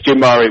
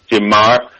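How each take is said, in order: First: Mare is said with a Spanish-style pronunciation. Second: Mare is said with an English-style pronunciation. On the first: "it's gin Mare we pronounce in Spain" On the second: "most people obviously read it as a bottle and pronounce it gin Mare"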